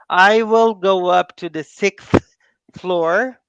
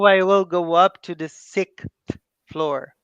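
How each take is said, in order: First: Every word is said carefully and separately. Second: The words are reduced and run together. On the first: The speaker calls it wrong. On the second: The speaker calls it right.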